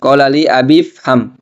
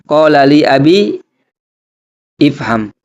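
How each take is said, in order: First: The 'i' is dropped, going straight to 'fham'. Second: An 'i' vowel is pronounced before 'fham'. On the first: The speaker calls it right. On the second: The speaker calls it wrong.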